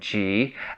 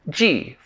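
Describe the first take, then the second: First: The pitch rises from middle to high. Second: The pitch falls sharply from high to low. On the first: It means episode. "second tone G" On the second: It means season. "fourth tone season"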